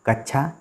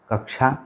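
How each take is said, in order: First: कक्षा said as "कच्छा", with a च्छ sound in the middle; wrong pronunciation option. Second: कक्षा said as "कक्षा", with a क्ष (क + मूर्धन्य ष) cluster; correct pronunciation option. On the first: (कक्षा को "कच्छा" बोलें, बीच में च्छ की ध्वनि) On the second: (कक्षा को क्ष के साथ शुद्ध बोलें) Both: Shown as a demonstration. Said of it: "कक्षा शब्द का शुद्ध उच्चारण है".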